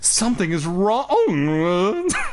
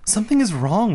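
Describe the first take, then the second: First: A put-on comical character voice is used. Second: A plain girl voice sounding concerned is used. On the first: The speaker calls it wrong. "I'm not doing that Lori voice anymore" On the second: The speaker calls it right. "That's my girl voice"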